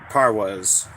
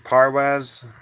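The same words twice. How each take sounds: First: The last syllable sounds like the word 'was'. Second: The last syllable is said as 'waz'. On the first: "If it's was, um put number two" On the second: "If it's um if it's Waz, um put number one"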